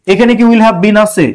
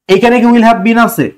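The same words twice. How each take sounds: The two takes are said the same way.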